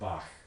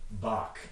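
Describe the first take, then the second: First: The word ends in a raspy fricative sound. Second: The word ends in a hard stop sound. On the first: The speaker wants to sound sophisticated about music. "you might allow this sound into the English pronunciation" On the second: This is the usual everyday English form. "map this to a velar stop and pronounce this Bach"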